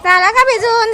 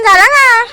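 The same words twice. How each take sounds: First: Said in the usual way. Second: Louder repeat. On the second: Real, not acted. Mother repeating question to soaked child, louder. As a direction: say it again, louder and insistent.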